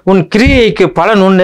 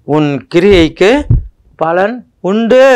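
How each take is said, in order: First: Pitched high and loud, announcing the promise; ringing proclamation. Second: Slow and drawn out, pitched high, each phrase rising at the end; slow emphatic repeat. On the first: Preacher to his congregation, proclaiming the verse high. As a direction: lift the verse up high and proud. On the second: Preacher to his congregation, repeating the verse slowly. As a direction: spell the promise out slowly, lifting the ends. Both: Acted.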